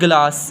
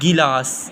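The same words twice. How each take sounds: First: The first vowel is an 'a' sound. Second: The first vowel is an 'i' sound. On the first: The speaker calls it wrong. "इसको लोग पढ़ते हैं गिलास, गलत है" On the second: The speaker calls it right. "ज़ेर के साथ"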